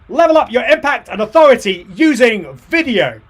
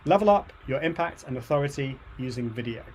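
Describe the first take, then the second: First: It is said with the most energy. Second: It is said with calm, low energy.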